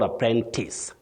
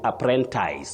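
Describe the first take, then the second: First: The last syllable sounds like tis. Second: The last syllable sounds like ties. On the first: The speaker calls it right. "We have apprentice or apprentice, tis, not ties" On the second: The speaker calls it wrong. "many people even start with apprentice, but we don't have apprentice"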